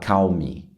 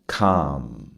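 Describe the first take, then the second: First: An L sound is heard before the M. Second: The vowel goes straight to the M. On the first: The speaker calls it wrong. "Aqui você não vai falar calme" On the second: The speaker calls it right. "você não fala o L, você fala calm"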